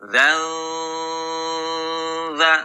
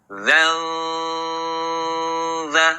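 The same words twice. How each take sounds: The two takes are said the same way.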